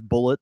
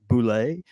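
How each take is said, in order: First: The name is said like bullet. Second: The name is said like boo-lay. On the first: The speaker calls it right. "the official the official uh, pronunciation of this is Bullet" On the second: The speaker calls it wrong. "there's a misconception that you might be s- you're supposed to pronounce it as like Boulay"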